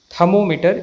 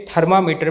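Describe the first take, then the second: First: थर्मोमीटर with no r before m; silent r. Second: थर्मामीटर with an r before m; sounded r. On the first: Teacher repeats correct word, first r silent. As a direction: say थर्मोमीटर as "thuh-mo-meter". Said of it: "सही pronunciation है". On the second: Teacher showing the wrong way, r sounded. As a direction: pronounce the first r in थर्मामीटर. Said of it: "गलत है". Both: Shown as a demonstration.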